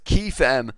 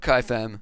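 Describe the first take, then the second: First: The first syllable sounds like 'key'. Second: The first syllable sounds like 'kye'. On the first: The speaker calls it right. "it is KeyFam" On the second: The speaker calls it wrong. "not KaiFam"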